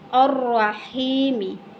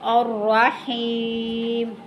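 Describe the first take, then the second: First: The word ends with a short i vowel. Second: The word ends on the bare consonant m.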